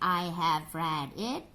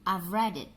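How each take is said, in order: First: 'Have' is said as a full separate word. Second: 'Have' is shortened to a v sound. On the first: The speaker calls it wrong. "Jadi bukan" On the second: The speaker calls it right.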